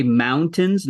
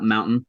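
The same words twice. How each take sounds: First: "mountains" with a clear T; T pronounced. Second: "mountain" with the T swallowed; dropped T. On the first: Telling own way of saying it, T pronounced. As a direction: sound the T fully in "mountains". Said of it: "I always say mountains". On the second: Showing the way not said, T swallowed. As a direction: leave the T out of "mountain". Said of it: "I always say mountains, not mountain". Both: Shown as a demonstration.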